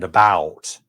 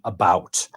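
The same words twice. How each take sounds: First: It is said with an American vowel. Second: It is said with a Canadian vowel. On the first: "Americans tend to say because and about" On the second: "We we have this funny way of saying about"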